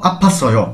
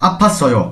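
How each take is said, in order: The two takes are said the same way.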